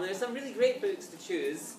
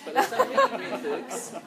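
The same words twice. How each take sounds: First: Said in the usual way. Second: Really pitched high and loud with a laugh; stress on really. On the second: Shown as a demonstration. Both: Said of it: "there's some less great books".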